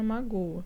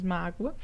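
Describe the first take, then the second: First: "magoa" with the stress on the last syllable GOA; oxytone stress. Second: "mágoa" with the stress on MÁ; paroxytone stress. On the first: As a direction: land "magoa" on its final syllable. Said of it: "a oxítona". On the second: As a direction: say "mágoa" leaning on the first syllable MÁ. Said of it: "e a oxítona magoa". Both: Shown as a demonstration.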